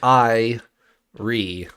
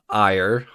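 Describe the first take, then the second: First: The word is said as two syllables. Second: The word is said as one syllable. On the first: The speaker calls it right. "like two two syllables" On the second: The speaker calls it wrong. "everyone would assume that would be pronounced ire"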